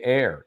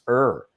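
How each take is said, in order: First: The vowel sounds like the word air. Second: The vowel sounds like the word her. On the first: The speaker calls it wrong. "they say air, and that's wrong" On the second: The speaker calls it right. "It's er"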